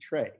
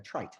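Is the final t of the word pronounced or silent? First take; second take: silent; pronounced. First: The word ends without a t sound. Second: The word ends with a clear t sound. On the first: The speaker sounds a bit fancy. "pronounce it in a bit of a French manner" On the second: The speaker sounds down to earth. "Psychologists are more down to earth and they say trait"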